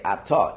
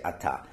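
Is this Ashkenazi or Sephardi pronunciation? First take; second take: Ashkenazi; Sephardi. First: It is said with Ashkenazi pronunciation. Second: It is said with Sephardi pronunciation. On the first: "If you're not, you say Atah"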